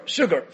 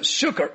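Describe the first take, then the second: First: Said in the usual way. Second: Sugar said as "shooker", with a hard k; foreign-style pronunciation. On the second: Shown as a demonstration. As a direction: say sugar with a k in place of the g. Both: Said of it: "call this Davash Sukar".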